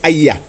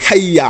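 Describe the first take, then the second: First: The word starts directly with a vowel. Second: The word starts with a breathy h sound. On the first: The speaker calls it wrong. "On ne dit pas euh, non plus Ayya" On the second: The speaker calls it right. "On dit Hayya ala salah"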